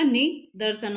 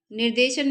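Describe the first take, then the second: First: निदर्शन split as "ni, dar-san"; correct NIDARSHAN. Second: निर्देशन as "nir-de-shan"; wrong word NIRDESHAN. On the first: Teacher correcting the word, निदर्शन as "ni-dar-san". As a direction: move the r after द in निदर्शन. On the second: Teacher quoting the wrong form, निर्देशन as "nir-de-shan". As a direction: give निर्देशन with r before d and an e. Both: Shown as a demonstration. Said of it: "निर्देशन नहीं होता".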